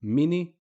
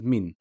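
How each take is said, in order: First: "mini" with short i after N; kasra after N. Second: "min" in one syllable ending on N; stop on the N. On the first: Teacher showing the difference, added final i. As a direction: open the N of "mini" into i. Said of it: "the difference in pronunciation". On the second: Teacher showing the difference, stopped N. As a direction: close "min" on the N, no vowel. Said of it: "We just stop at the n sound". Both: Shown as a demonstration.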